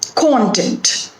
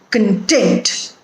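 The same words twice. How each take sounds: First: The stress is on the first syllable. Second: The stress is on the second syllable. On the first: It names what is contained in something. "the stress is on the first syllable" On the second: It means making someone feel satisfied. "the stress also shifts from the first syllable to the second syllable"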